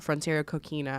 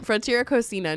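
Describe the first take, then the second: First: It is pronounced like the shell name coquina. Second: It is pronounced unlike the shell name coquina. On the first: The speaker calls it wrong. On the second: The speaker calls it right.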